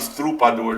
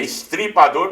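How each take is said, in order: First: The vowel after 'estr' is a 'u' sound. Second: The vowel after 'estr' is an 'i' sound. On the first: The speaker calls it wrong. "Tem muita gente que fala estrupador" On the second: The speaker calls it right. "É estripador porque ele estripava"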